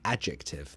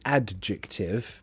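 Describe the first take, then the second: First: The D sound is silent. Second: The D sound is clearly pronounced. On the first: The speaker calls it right. "that's the pronunciation" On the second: The speaker calls it wrong. "some people who pronounce it adjective"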